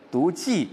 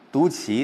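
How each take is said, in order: First: 骑 said jì, falling fourth tone; 骑 read as jì. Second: 骑 said qí, rising second tone; 骑 read as qí. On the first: Teacher allows the first reading, 骑 said jì. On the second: Teacher allows the second reading, 骑 said qí. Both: Shown as a demonstration. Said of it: "读骑都可以".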